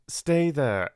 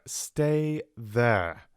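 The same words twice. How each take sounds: First: Higher and louder, urgent; urgent plea down the phone. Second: A touch of urgency; urgent repeat down the phone. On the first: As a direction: pin her in place with it. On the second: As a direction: repeat it, pressing. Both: Acted. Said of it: "he said urgently".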